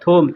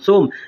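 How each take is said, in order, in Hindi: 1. शब्द की शुरुआत th ध्वनि से होती है। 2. शब्द की शुरुआत s ध्वनि से होती है। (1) "बोलने के लिए आदमी थोम बोलता है" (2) "होता है अरबी में सोम"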